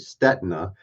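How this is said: The surname is said with an American pronunciation. "in America we say Stetina"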